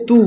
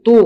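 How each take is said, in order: First: তু with a light, thin t; thin sound. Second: তু with a heavy, rounded t; thick sound. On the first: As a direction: keep the t of তু light. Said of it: "পাতলা আওয়াজে". (পাতলা আওয়াজে তু) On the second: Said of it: "মোটা আওয়াজে". (মোটা আওয়াজে তু) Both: Shown as a demonstration.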